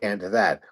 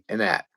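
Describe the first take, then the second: First: The words are said clearly in a standard accent. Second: The words run together in a Pittsburgh accent. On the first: This is not how locals say it. "we don't say and that" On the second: This is how locals say it. "We say and that"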